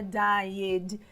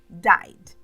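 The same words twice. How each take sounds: First: The ending is sounded as an extra syllable. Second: The word is said as one syllable. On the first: The speaker calls it wrong. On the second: The speaker calls it right.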